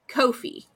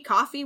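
First: It is said to rhyme with no fee. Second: It is said like the drink coffee. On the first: "which they said rhymes with no fee" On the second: "Because it's like, buy me a coffee"

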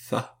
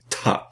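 First: The consonant is a soft fricative th sound. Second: The consonant is a t with a puff. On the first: This is the school pronunciation of the letter. "you pronounce a theta like an interdental fricative" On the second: This is the reconstructed ancient pronunciation of the letter. "I will pronounce that as an aspirated T"

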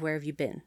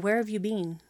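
First: It has an American accent, 'been' like 'ben'. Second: It has a British accent, 'been' like 'bean'.

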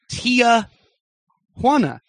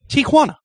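First: An extra vowel is added after the first syllable. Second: No extra vowel follows the first syllable. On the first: The speaker calls it wrong. "people adding a letter that doesn't exist in the name Tijuana" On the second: The speaker calls it right. "It is a T and a Juana"

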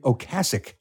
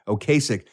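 First: The word case is not heard in the middle. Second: The word case is heard in the middle. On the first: The speaker calls it right. "but it's actually Ocasek" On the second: The speaker calls it wrong. "The case is right in the middle of it"

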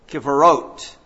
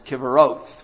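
First: The word ends with a plain t sound. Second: The word ends with a th sound. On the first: This is the modern pronunciation. "Today in Israel, they would pronounce it Kivarot" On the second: This is the older pronunciation. "in the King James time, they pronounced these Hebrew words Kivaroth with the TH"

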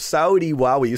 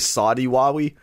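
First: Saudi is said to rhyme with Wowie. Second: Saudi is said without rhyming with Wowie. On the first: The speaker calls it right. "you got to pronounce Saudi correctly for that to make sense" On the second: The speaker calls it wrong. "it doesn't sound as good"

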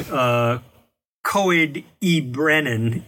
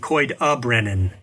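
First: The middle word has a full vowel sound. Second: The middle word is a weak schwa sound. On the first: The speaker calls it wrong. "instead of saying" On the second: The speaker calls it right. "it also makes a schwa sound"

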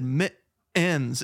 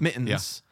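First: The vowel before the final n is clearly pronounced. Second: The vowel before the final n is swallowed. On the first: This imitates how someone else said it. "She tackled that E" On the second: This is the speaker's own everyday pronunciation. "I swallow the E"

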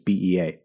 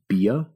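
First: Each letter is spoken separately. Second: It is spoken as one single word. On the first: "I believe it's BEA" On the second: "if you just pronounced it, it would be BIA"

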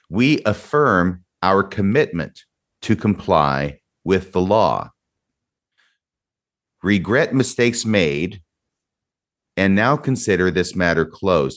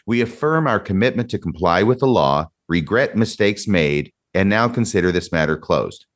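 First: It is read at a slower pace. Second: It is read at a quicker pace.

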